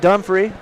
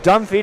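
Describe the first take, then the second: First: The name is said as 'Dumfrey'. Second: The name is said as 'Dunphy'. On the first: The speaker calls it wrong. "not Dumfrey" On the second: The speaker calls it right. "It's Dunphy"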